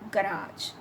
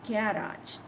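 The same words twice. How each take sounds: First: It is said with an American English pronunciation. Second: It is said with a British English pronunciation. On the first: "is U S, that is American"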